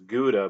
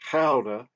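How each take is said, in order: First: It is said with an American English pronunciation. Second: It is said with a Dutch pronunciation. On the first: The speaker calls it wrong. "Americans uh, typically pronounce it as" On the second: The speaker calls it right. "but it's Gouda, is what I was told"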